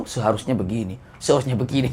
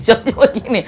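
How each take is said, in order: First: Low, softer nagging mock complaint; grumbling pilgrim. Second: Said through a laugh, lifting up; mock the complainer while laughing; laughing mock complaint. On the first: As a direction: grumble it like a know-it-all pilgrim. (jamaah haji menggerutu pelan, sok tahu) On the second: (menirukan keluhan sambil tertawa)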